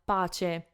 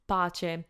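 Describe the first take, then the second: The two takes are said the same way.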